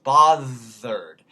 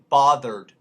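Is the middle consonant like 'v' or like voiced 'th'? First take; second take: v; th. First: The middle consonant is a 'v' sound. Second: The middle consonant is a voiced 'th'. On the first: "So it becomes a V" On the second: "can't be bothered, mate, becomes"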